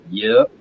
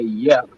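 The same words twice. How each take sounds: First: The vowel sounds like the vowel in 'cup'. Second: The vowel sounds like the vowel in 'pet'. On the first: "yep with the Y U P" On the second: "yep with W or Y E P"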